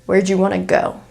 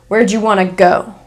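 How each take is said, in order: First: 'Did you' becomes 'jew' and 'want to' becomes 'wanna'. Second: The same.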